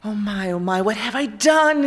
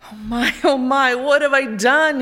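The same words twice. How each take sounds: First: Wailing. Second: Louder, higher anguished moan; the king moans over his own cruelty. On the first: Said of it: "he wailed". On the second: The guilty king moans aloud at night. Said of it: "he moaned". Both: A narrator's reading.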